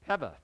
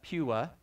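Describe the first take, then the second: First: The middle consonant is a V sound. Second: The middle consonant is a W sound. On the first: The speaker calls it right. "the W is pronounced as a V. So the correct pronunciation is" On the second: The speaker calls it wrong. "I used to pronounce that"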